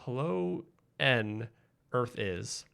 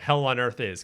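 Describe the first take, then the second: First: It is split as hello, then a separate N. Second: It is split as hell, then on. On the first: The speaker calls it wrong. "I'm saying it wrong" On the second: The speaker calls it right. "Got it. That makes more sense"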